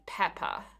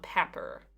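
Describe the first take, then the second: First: The final R sound is dropped. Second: The final R sound is clearly pronounced. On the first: "an Australian accent or a British accent, you would say pepper" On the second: "not pepper"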